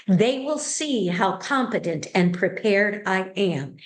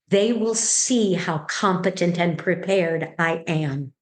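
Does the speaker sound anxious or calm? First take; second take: calm; calm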